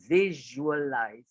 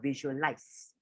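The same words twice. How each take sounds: First: The ending uses a buzzing Z sound. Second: The ending uses a hissing S sound. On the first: The speaker calls it right. "with a Z sound" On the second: The speaker calls it wrong. "not with an S. It's not visualize"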